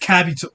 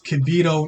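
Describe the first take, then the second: First: The first vowel sounds like 'uh'. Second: The first vowel sounds like 'ee'. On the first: The speaker calls it wrong. "not Kabito" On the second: The speaker calls it right. "It's Kibito"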